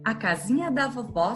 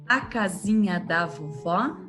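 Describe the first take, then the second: First: It is recited at a fast speed. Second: It is recited at a moderate speed.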